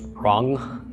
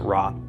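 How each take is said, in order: First: It ends with a swallowed guttural throat sound. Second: It ends plainly on the vowel, without guttural. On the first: "this ayin can pronounce as a kind of the swallowing guttural sound" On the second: "with no no special pronunciation of the ayin"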